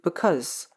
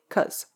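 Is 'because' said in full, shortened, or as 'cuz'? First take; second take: shortened; cuz. First: The word is pronounced in a shortened form. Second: The word is cut down to one syllable. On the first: "gets shortened to" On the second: "if we are in a big rush or feeling lazy"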